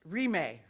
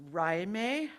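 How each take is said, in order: First: Rime said as REE-may, falling; corrected pronunciation. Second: Rime said as RYE-may, rising; unsure guess, Rime as "rye-MAY" with questioning lift; tentative mispronunciation. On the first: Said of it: "It's pronounced Rime". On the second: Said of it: "Okay, I'm close". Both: Real, not acted.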